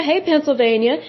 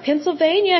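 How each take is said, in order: First: Friendly lifted hey with a rising end; cheery greeting. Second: Said in the usual way. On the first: Real, not acted. Host greeting Pennsylvania listeners, cheerful rise. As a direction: wave hello with your voice.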